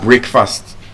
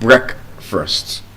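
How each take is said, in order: First: The first syllable sounds like the word 'break'. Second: The first syllable has a short 'brek' vowel. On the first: The speaker calls it wrong. "we have not had breakfast" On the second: The speaker calls it right. "we have had breakfast"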